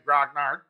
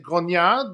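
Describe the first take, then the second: First: The word is pronounced the English way. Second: The word is pronounced the French way. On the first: "if you like the English, you'll say" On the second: "if you like the French pronunciation, you'll say"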